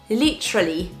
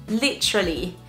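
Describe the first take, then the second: The two takes are said the same way.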